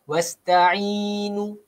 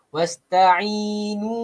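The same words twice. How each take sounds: The two takes are said the same way.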